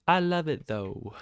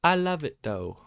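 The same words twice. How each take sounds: First: High, loud burst of joy repeated; squealing delight again. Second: High, loud burst of joy; squealing delight. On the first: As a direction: squeal it out with glee once more. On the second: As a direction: squeal it out with glee. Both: Real, not acted. Excited trader loving the loss.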